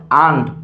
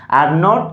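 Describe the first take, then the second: First: "aren't" run into one syllable, "aand"; contracted pronunciation. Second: Said in the usual way. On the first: Shown as a demonstration. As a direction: say "aren't" with no r, falling. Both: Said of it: "একটা উচ্চারণ শিখলে".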